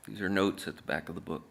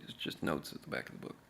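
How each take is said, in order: First: Said in the usual way. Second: Tossed off under the breath, quicker; hushed aside. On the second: Shown as a demonstration. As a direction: drop to a fast whisper. Repeats the line, then hushes it.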